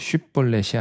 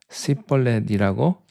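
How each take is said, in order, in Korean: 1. 이 단어는 'sh' 소리로 시작해요. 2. 이 단어는 's' 소리로 시작해요. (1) "쉿볼렛이 아니고" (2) "싯볼렛이라고 자꾸 발음을 하는 거예요"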